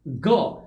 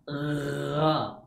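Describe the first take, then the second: First: The sound is a hard stop like g. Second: The throat sound is rough with strong vibration. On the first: "ada juga yang menyamakannya dengan bunyi go" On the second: "gha dibaca dengan adanya getaran di tenggorokan"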